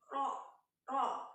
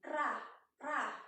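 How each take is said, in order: First: The letter is said heavy, with an o-like vowel. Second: The letter is said thin, with a clear a. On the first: The speaker calls it right. "sebenarnya itu bukan ra tapi ro ro ya. Itu masuk dalam uh, huruf tebal" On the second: The speaker calls it wrong. "banyak yang menyebutkan ra ra"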